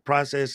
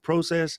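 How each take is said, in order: First: The word is said with an American pronunciation. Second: The word is said with a non-American pronunciation. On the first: The speaker has become American. "you're now officially a naturalized American because you said process" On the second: The speaker is still Canadian. "and not process"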